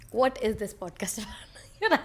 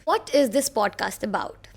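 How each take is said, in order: First: Whispered through a laugh; giggly whisper. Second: Said in the usual way. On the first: Real, not acted. Asking her own podcast's premise, whispered with a laugh. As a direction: ask it again in a laughing hush.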